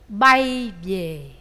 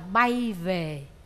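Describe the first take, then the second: First: It is said with a Southern Vietnamese accent. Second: It is said with a Northern Vietnamese accent. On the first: "Người Nam, tất cả các em đều sai hết. Bay về" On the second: "Người Bắc á, người ta kêu là bay về"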